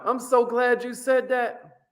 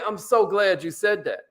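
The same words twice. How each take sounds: First: Higher, slow and pleased; glad agreeing tone. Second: Said in the usual way. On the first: Shown as a demonstration. Salesman to customer, slowly and gladly agreeing. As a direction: sound truly glad they objected. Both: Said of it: "you gotta be like".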